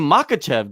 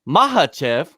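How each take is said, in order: First: The middle consonant is a hard k sound. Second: The middle consonant is a breathy h sound. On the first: The speaker calls it wrong. "it's not even Makachev" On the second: The speaker calls it right. "It's Mahachev"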